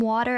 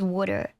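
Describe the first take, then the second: First: Water is said in a standard accent. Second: Water is said like 'wooder', New Jersey style. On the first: "saying water as" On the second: "I'm from New Jersey. ... they make fun of saying water as water"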